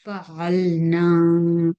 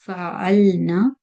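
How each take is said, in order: First: "fa'alna" with the final na held long; lengthened final vowel. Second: "Fa'alna" ending on a short na; short final vowel. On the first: Teacher contrasting the word for "we did", long ending. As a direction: stretch the last a of "fa'alna" on a level note. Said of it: "If it has noon alif mad, we did". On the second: Teacher showing the word for "they females did", short ending. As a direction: cut the last a of "Fa'alna" to one count. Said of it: "When it has noon fatha, they females did". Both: Shown as a demonstration.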